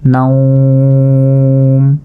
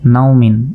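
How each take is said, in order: First: The word stops short on a plain m sound. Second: The word ends with the full -min ending. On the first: The reader pauses at this word. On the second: The reading continues without stopping.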